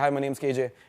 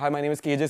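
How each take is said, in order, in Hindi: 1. यह बनावटी पश्चिमी लहजे में बोला गया है। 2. यह सादे भारतीय अंग्रेज़ी लहजे में बोला गया है।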